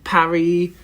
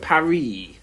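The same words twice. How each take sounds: First: It is said with a French pronunciation. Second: It is said with a French pronunciation.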